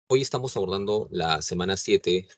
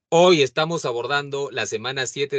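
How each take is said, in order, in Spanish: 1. Se dice más suave. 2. Se dice más fuerte. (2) "más alto que las anteriores veces"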